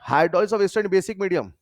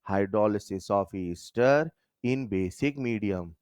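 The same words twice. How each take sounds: First: The phrase is said at a fast pace. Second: The phrase is said at a slow pace.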